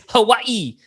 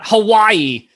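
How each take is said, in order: First: The word is said in a local Hawaiian style. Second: The word is said in a plain mainland style. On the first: Someone posing as a local insists on this form. The speaker calls it right. "It's Hawaii" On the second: This is the form the fake local calls a mistake. The speaker calls it wrong. "you're pronouncing it wrong"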